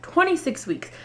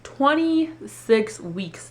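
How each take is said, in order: First: High, falling twenty-six weeks in disbelief; shocked exclaim. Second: Very slow, dazed twenty-six weeks; stunned repeat. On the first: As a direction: cry out the number in shock. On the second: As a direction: let the number sink in, stunned. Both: Retold or imitated. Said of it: "this woman tells me".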